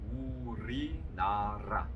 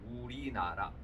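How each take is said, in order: First: The r-sounds are clearly rolled. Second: The r-sounds are plain, not rolled. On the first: The jaw and tongue tension is released for singing. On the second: Ordinary speech without distinction.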